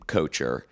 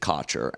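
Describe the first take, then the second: First: The name is said to rhyme with kosher. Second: The name is said not rhyming with kosher. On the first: This is the older family pronunciation. "They were rhyming Kocher with kosher" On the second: This is the changed pronunciation that avoids teasing. "my father had changed it to Kocher"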